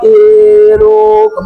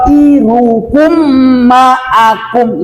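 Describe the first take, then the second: First: QAIRUKUM dragged out very long on a high note; wrong over-stretched reading. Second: QAIRUKUM with long first vowel, then short syllables and held m; correct recitation. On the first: Teacher shows a faulty student reading, overlong and high. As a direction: chant qairukum with every vowel overstretched. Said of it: "Contoh kayak gini bacanya". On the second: Teacher corrects the faulty reading, measured chant. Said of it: "Itu bacanya". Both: Shown as a demonstration.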